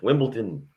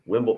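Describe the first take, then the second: First: The word is said carefully in a British accent. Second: The word is said casually with a clipped ending. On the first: "I'll be very official. I'll say it in English" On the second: "I just don't care to finish off the Wimbledon"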